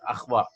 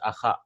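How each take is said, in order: First: No vowel follows the 'kh' sound. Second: An 'a' vowel follows the 'kh' sound. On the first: The speaker calls it wrong. "It's not akhwa" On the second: The speaker calls it right. "It is akha. ... this has a fatha"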